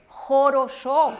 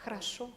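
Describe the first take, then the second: First: Jorosho with full O vowels, slow and loud; spelled-out pronunciation. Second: Hrasho with the first vowels nearly swallowed; reduced Russian Hrasho; Russian pronunciation. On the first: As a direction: sound out Jorosho as written, every O round. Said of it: "Aquí dice". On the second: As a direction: say Hrasho short, stress on the last syllable. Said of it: "pero en ruso es Hrasho". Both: Shown as a demonstration.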